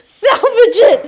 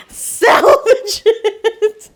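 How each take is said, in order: First: Louder, urgent call; urgent shout. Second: Slow, laughing repeat; laughing drawn-out. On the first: The Oreo broke, urgent shout to salvage it. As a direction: shout it to save the cookie. Trying to rescue the broken cookie. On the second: Repeating the rescue call, drawn out with laughter. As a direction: stretch it out through laughter. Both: Real, not acted.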